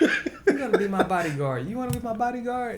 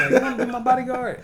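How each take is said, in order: First: Put-on high playful girly voice. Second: Put-on high loud girly squeal.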